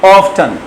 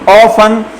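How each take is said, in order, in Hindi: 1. इस शब्द में t बोला जाता है। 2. इस शब्द में t साइलेंट बोला जाता है। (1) "अमेरिकन पढ़ते हैं ऑफ्टन" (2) "यूके वाले ऑफन, टी साइलेंट है"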